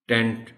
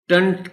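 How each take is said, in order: First: "ٹینٹ" as tent with a clear E; wrong ending. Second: "ٹنٹ" as tunt with a schwa; correct ending. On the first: Teacher showing the ending to avoid, "ٹینٹ" as tent. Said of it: "ٹینٹ نہیں ہو سکتا". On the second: Teacher isolating the right last syllable, "ٹنٹ" as tunt. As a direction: say "ٹنٹ" with a short uh. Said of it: "ٹنٹ کی sound ہے". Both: Shown as a demonstration.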